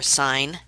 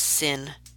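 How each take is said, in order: First: It is said with a long vowel, like 'sign'. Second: It is said with a short vowel, like 'sin'. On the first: The speaker calls it right. "They are sine" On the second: The speaker calls it wrong. "Please do not pronounce them as sin"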